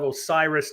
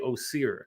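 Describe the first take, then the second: First: The name ends with an s sound. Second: The name ends without an s sound. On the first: This is how Americans say it. "instead of Osiris" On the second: This is how Egyptians say it. "they'll say Osir"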